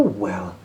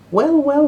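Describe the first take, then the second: First: Said in the usual way. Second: High, loud drawn-out exclamation; exclaiming. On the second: Acted. Percy, surprised by the girl's secret passage, exclaims loudly. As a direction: sing out the wells in delight.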